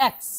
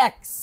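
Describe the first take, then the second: No difference in how they are said.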